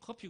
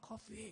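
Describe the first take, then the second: First: It is said with a Korean accent. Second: It is said with an American accent. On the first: Listeners in America would not understand it. The speaker calls it wrong. "우리 뭐 커피 커피 그러잖아요. 못 알아듣습니다" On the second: Listeners in America would understand it. The speaker calls it right. "커피 이럽니다"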